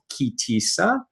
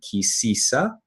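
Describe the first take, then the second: First: The second word begins with a t sound. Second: The second word begins with an s sound. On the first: "this Torah portion is called Ki Tisa"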